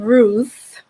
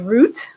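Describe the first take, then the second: First: The name ends in a th sound. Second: The name ends in a t sound. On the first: The speaker calls it right. "Ruth with a T H at the end" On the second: The speaker calls it wrong. "to my Caribbean friends, they would say Root"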